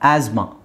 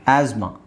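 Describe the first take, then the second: Both takes have the same delivery.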